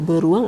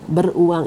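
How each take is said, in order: First: The word is said without any break. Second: There is a break between 'ber' and 'uang'. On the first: A kind of animal. "beruang adalah sejenis hewan" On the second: Having money. "Beruang itu memiliki uang"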